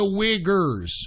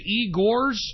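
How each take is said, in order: First: The word is said like 'Uyghurs'. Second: The word is said like 'Igors'. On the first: The speaker calls it right. "No, it's the Uyghurs" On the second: The speaker calls it wrong. "I thought it was the Igors"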